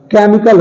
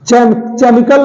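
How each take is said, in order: First: Said in the usual way. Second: केमिकल said as "che-mical"; wrong pronunciation. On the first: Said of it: "एच silent होता है". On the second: Shown as a demonstration. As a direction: start केमिकल on ch, not k. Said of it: "नहीं होता है".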